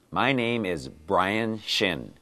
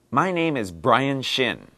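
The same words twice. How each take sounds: First: My name is Brian Shin said slowly, word by word; slow it down for learners; slow model line. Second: Said in the usual way. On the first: Shown as a demonstration. Teacher repeating the line slowly so learners catch the B. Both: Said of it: "Today's dialogue has this sound in it".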